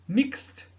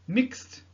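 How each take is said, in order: Both takes have the same delivery.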